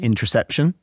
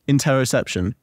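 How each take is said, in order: First: No vowel is heard between 'inter' and 'ception'. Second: An 'o' vowel is heard between 'inter' and 'ception'. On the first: The speaker calls it wrong. "I kept saying in the class" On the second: The speaker calls it right. "There's an O in it"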